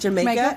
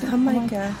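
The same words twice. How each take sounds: First: The word is pronounced like the English island name. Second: The word is pronounced the Spanish way. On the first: This is how the word is written. "It's spelled like Jamaica" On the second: This is how people actually say it. "they pronounce it Jamaica"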